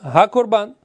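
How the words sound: It is said as one joined word. The thing is declared to be a sacrifice. "Одним словом"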